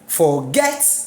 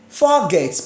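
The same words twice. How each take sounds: First: The stress is on the second syllable. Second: The stress is on the first syllable. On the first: The speaker calls it right. "let me put it on the second syllable" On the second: The speaker calls it wrong. "should I put the stress on the first syllable?"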